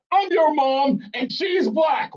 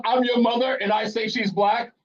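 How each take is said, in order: First: High, slow, drawn-out mock shout; insistent mother. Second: Lightly voiced mother, pitched up; mother's declaration. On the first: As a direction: overrule your kid as a hammed-up Mom. Mother insisting over objection. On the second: Host playing the caller's mother, mildly insistent. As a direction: state it as Mom laying down a claim.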